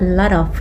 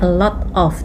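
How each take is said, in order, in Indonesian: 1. Kata-katanya menyatu menjadi satu rangkaian yang cepat. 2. Setiap kata diucapkan terpisah dan jelas. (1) "mereka tuh biasanya a lot of gitu ya" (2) "Kita kan kadang-kadang bilangnya a lot of"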